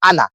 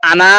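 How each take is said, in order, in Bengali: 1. শেষের স্বরটা ছোট রাখা হয়। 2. শেষের স্বরটা লম্বা করে টানা হয়। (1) "এইভাবে বলতে হবে আনা" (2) "তাহলে তো আনা এরকম বলা উচিত ছিল"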